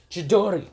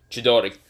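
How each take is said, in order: First: Higher, louder battle call; attack shout. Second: Said in the usual way. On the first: Acted. Luffy calling his attack to block Mihawk, loud battle cry. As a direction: yell the attack name.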